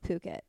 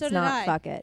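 First: The word begins with a 'p' sound. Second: The word begins with an 'f' sound. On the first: The speaker calls it right. "They don't pronounce the H or something" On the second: The speaker calls it wrong. "so I thought it was fuck it"

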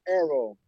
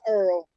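First: The name is said as two syllables, like 'Arrow'. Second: The name is said as one syllable, like 'Earl'. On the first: The speaker calls it right. "Arrow, not Earl, Arrow" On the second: The speaker calls it wrong. "not Earl"

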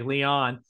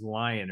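First: The name is pronounced the French way. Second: The name is pronounced like the English word lion. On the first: "saying it in the French way" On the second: "it's probably just Lion"

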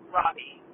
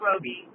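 First: The first vowel is a short 'o' sound. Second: The first vowel is a long 'oh' sound. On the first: The speaker calls it right. "it's Margot Robbie" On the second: The speaker calls it wrong. "Not Roby"

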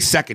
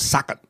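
First: The word is said plainly in a normal voice. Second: The word is said in a rhythmic imitated voice. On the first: "when he doesn't just say second" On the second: "he goes second"

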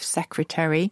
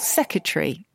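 First: Every syllable of the word is pronounced. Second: A syllable of the word is dropped.

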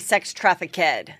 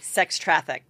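First: Trafficked is said with three syllables. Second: Trafficked is said with two syllables. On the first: The speaker calls it wrong. "I give it like an extra" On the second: The speaker calls it right. "instead of like sex trafficked"

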